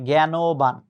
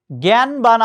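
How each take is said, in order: First: "জ্ঞানবান" in three beats, gya-no-ban; correct pronunciation. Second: "জ্ঞানবান" in two beats, gyan-ban; common mispronunciation. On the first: Teacher correcting students, "জ্ঞানবান" as gya-no-ban with a clear o. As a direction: sound the middle o in "জ্ঞানবান". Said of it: "কিন্তু না, উচ্চারণটা হচ্ছে". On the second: Teacher quoting students' error, "জ্ঞানবান" as gyan-ban without the middle o. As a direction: run "জ্ঞানবান" together with no o after n. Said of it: "অনেক ছেলেমেয়েরা উচ্চারণ করে". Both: Shown as a demonstration.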